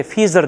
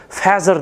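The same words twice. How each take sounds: First: FEATHER with a long ee, "FEE-zer"; variant pronunciation. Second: FEATHER with an open a, "FAZ-er"; variant pronunciation. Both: Shown as a demonstration. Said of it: "agar aksentni yaxshi bilmasangiz".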